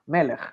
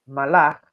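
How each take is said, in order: First: Melech said with two open E sounds, meh-lekh; "melech" with E in both syllables, the word for king; vowels E E. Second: Malach said with two A sounds, mah-lakh; "malach" with A in both syllables, meaning he reigned; vowels A A. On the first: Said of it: "Si yo le coloco una vocal E". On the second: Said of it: "Pero si le coloco una A y una A". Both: Shown as a demonstration.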